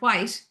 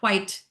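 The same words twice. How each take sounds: First: It is said in her natural Irish accent. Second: It is said with a clipped, clearer T. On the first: Americans may not understand it. "So I might say the word" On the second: Americans understand it straight away. "which is actually the word"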